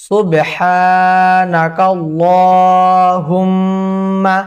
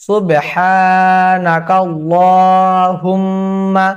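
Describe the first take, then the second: No difference in how they are said.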